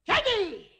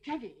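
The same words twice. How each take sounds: First: Loud, high call of the name; scolding shout. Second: Said in the usual way. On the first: Acted. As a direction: shout it at a naughty little one. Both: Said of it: "I won't shout anymore".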